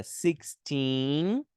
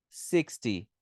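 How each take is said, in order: First: Put-on "Sixteen" with stress on TEEN. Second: "sixty" stressed on SIX, falling lower; stress on first syllable. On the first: Teacher contrasts "Sixteen" with sixty, stressed teen. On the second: Teacher contrasts "sixty" with sixteen, SIX stressed and falling. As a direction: drop the tune on "sixty". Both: Shown as a demonstration. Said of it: "Veja que a entonação é diferente".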